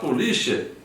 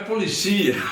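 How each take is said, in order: First: The word carries the Portuguese stress placement. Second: The word carries the Spanish stress placement. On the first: "quando você vai falar polícia" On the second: "o espanhol é policia. Há uma inversão"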